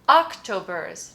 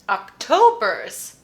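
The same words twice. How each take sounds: First: The stress is on the first syllable. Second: The stress is on the middle syllable. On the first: The speaker calls it wrong. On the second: The speaker calls it right. "Yes. It's the middle"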